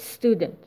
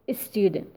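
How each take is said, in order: First: The word starts directly with the S. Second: An extra vowel comes before the S. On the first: The speaker calls it right. "We say student" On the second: The speaker calls it wrong. "We don't say a student"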